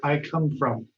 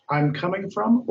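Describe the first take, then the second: First: Said in the usual way. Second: Wrong option read. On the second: Shown as a demonstration. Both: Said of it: "Marisa says".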